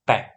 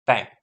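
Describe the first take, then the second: Both takes have the same delivery.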